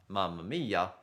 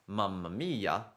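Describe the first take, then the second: Both takes have the same delivery.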